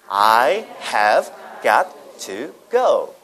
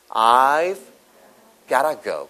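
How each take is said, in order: First: Every word is pronounced fully and clearly. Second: The words are contracted and blended together. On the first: "또박또박" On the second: "got to가 gotta로 발음되죠"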